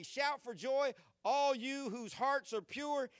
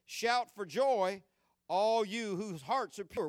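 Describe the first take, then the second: First: Higher, slowed repeat leaning on joy and all; emphasized repeat. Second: Verse read out, shout for joy pressed firmly; read aloud. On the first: Pastor repeating the verse's last line to the church, emphasized. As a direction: lift the verse up and lean into joy. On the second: Pastor reading the psalm verse to the church, plain but firm. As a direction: read it steady and full. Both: Shown as a demonstration. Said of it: "That very last thing".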